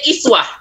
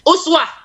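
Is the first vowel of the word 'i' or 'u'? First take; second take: i; u. First: The word begins with an 'i' vowel. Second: The word begins with an 'u' vowel. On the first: This is the reading of other reciters. "Qiraat lain membaca iswah" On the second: This is the Hafs reading. "uswatun hasanah itu hanya bacaan Hafs atau bacaan Asim"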